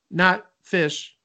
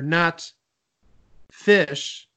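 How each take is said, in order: First: No pause separates the two words. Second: A short pause separates the two words. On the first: The clue is illegal. The speaker calls it wrong. "But you can't be like" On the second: The clue is allowed. The speaker calls it right. "if you put a little pause in there"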